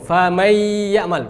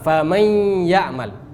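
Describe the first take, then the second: First: The merged n has no nasal hum. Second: The merged n carries a clear nasal hum. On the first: The speaker calls it wrong. "Kita bisa baca tanpa dengung" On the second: The speaker calls it right. "maka kita harus baca dengan dengung"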